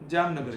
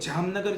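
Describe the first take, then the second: First: The word begins with a j sound. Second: The word begins with a z sound. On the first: The speaker calls it right. "જામનગર જેવું છે" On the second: The speaker calls it wrong. "જામનગર જેવું નહીં"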